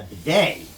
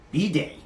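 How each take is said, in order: First: Said in the usual way. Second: Bidet as bee-DAY, stress on the end, pitched higher; French pronunciation. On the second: Shown as a demonstration. Host corrects himself to French bidet for Joseph. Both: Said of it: "You do a French accent".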